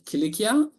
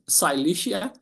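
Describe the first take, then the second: First: The name is said without English-style sounds. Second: The name is said with English-style sounds. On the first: "ancient Cilicia" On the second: "sometimes it is pronounced that Cilicia. It makes me uh, laugh"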